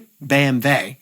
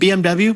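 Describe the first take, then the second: First: The letters are pronounced the German way. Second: The letters are pronounced the American way.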